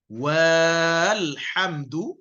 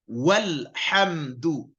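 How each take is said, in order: First: The wa vowel is drawn out long. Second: A short wa runs straight into lhamdu. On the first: The speaker calls it wrong. "Bukan walhamdu, itu salah" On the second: The speaker calls it right. "Jadi bacanya walhamdu"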